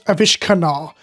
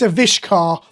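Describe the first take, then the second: First: The name has an extra 'na' syllable before the end. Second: The name ends in a short 'kar' sound. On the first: The speaker calls it wrong. "not Avishkanar" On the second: The speaker calls it right. "It's Avishkar"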